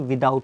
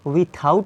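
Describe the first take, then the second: First: The middle consonant is a d sound. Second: The middle consonant is an aspirated th sound. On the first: The speaker calls it right. "बल्कि विदाउट होता है" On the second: The speaker calls it wrong. "विथआउट नहीं होता"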